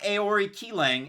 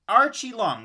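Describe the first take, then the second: First: The name sounds like 'Aori Kilang'. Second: The name sounds like 'Archie Long'. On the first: The speaker calls it wrong. "not Aori Kilang" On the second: The speaker calls it right. "It's Archie Long"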